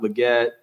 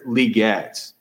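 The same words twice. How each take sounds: First: The stress is on the second syllable. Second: The stress is on the first syllable. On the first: The speaker calls it wrong. "not Leggett" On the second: The speaker calls it right. "with the accent on the first syllable"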